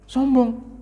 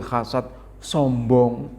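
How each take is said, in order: First: "Sombong" said alone, much higher, falling at the end; emphatic repeat. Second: Said in the usual way. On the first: Shown as a demonstration. Preacher warning the congregation against arrogance, emphatic high repeat. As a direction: lift "Sombong" high and let it drop to drive it home.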